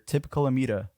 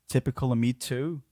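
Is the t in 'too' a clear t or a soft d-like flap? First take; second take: flap; clear t. First: The t in 'too' is a soft d-like flap. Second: The t in 'too' is a clear t sound. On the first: "in American English, you'd probably hear" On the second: "she's British"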